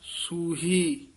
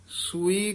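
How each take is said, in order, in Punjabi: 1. ਦੋ ਸਵਰਾਂ ਦੇ ਵਿਚਕਾਰ h ਦੀ ਆਵਾਜ਼ ਸੁਣਦੀ ਹੈ। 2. ਦੋ ਸਵਰਾਂ ਦੇ ਵਿਚਕਾਰ ਕੋਈ h ਦੀ ਆਵਾਜ਼ ਨਹੀਂ ਸੁਣਦੀ। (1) "ਹਾਹੇ ਨਾਲ ਉਚਾਰਨ ਕਰਨਾ ਹੈ" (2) "ਕਈ ਸੂਈ ਕਹਿ ਜਾਂਦੇ ਹਨ"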